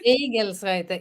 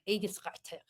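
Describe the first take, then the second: First: The name is said with Swedish pronunciation. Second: The name is said with harsher German pronunciation. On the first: "that's the Swedish version of it" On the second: "in the real German way, ... so it sounds more aggressive"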